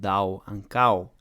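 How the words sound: The o vowels become an ow diphthong.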